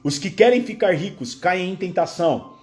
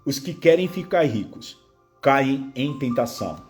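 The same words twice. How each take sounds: First: It is read at a normal pace. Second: It is read slowly with pauses.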